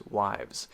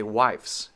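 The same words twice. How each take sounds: First: "wives" ending in buzzed V-Z; "wives", low and soft, ending in a Z; voiced Z ending. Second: "wifes" with a hissed F-S; wrong F-S ending. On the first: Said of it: "It is a Z sound". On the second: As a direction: say "wifes" with voiceless f and s at the end. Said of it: "So we don't say". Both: Shown as a demonstration.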